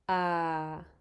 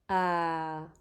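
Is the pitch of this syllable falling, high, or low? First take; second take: low; low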